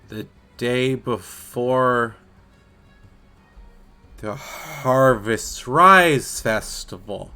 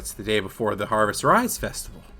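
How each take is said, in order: First: It is said slowly. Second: It is said at normal speed.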